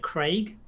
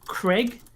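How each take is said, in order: First: The vowel sounds long, like 'Craig'. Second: The vowel sounds short, like 'Cregg'. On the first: It is the name as intended. "they were trying to say Craig" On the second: It is the name as heard in an accent. "C R E G G"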